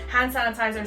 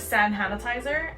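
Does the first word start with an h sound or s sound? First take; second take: h sound; s sound. First: The first word starts with an h sound. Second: The first word starts with an s sound.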